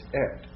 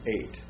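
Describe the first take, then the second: First: The vowel is a short plain e. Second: The vowel glides from e to i. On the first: The word is joined to the word after it. "when that is joined to the word after it" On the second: The word stands by itself. "When it's by itself"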